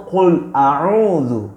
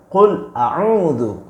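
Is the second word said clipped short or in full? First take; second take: full; full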